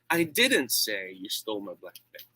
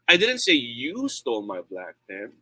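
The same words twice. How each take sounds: First: The stress is on the word 'say'. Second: The stress is on the word 'you'. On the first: It was conveyed some other way, not said. "That means uh, I did not do that. Maybe I wrote it" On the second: Someone else stole it.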